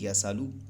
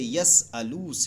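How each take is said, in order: First: The s runs straight into the vowel. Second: A glottal stop separates the s and vowel. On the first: "हमज़ा को हज़फ करना जायज़ है" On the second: "हमज़ा मुतहरिका"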